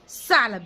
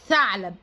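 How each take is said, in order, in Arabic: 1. الكلمة تبدأ بصوت s عادي. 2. الكلمة تبدأ بصوت th. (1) "ما تقوليلوش ثعلب" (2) "لازم لازم تقولي له ثعلب"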